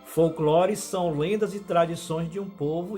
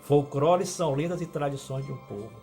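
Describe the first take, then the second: First: The L sounds in folclore are clear L sounds. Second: The L sounds in folclore are replaced by R. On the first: The speaker calls it right. "Folclore são lendas e tradições de um povo e de uma nação" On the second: The speaker calls it wrong. "coloca o R no lugar do L"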